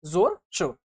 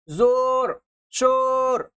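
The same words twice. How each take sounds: First: Said in the usual way. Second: जोर, शोर with the o held very long; exaggerated long-held o in जोर, शोर; wrongly drawn out. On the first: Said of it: "खींच कर ना पढ़ा जाए". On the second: Shown as a demonstration. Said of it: "ऐसे नहीं पढ़ते हैं".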